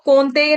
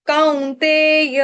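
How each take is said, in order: First: The first vowel sounds like a plain o. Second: The first vowel glides from a to u. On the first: The speaker calls it wrong. "इसको कौन्तेय नहीं पढ़ेंगे" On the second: The speaker calls it right. "इसको पढ़ेंगे काऊ।"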